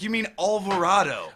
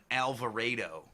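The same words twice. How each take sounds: First: "Alvarado" with open "ah", higher and louder; girlfriend's correction. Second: "Alvarado" with a hard A, as in "ray"; Cleveland A. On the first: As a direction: correct it pointedly to al-va-RAH-do. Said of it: "She's like". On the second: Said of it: "they have this accent". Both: Retold or imitated.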